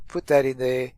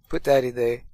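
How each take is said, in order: Both takes have the same delivery.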